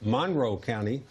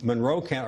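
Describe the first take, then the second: First: Monroe is said with a local regional pronunciation. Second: Monroe is said with a standard pronunciation.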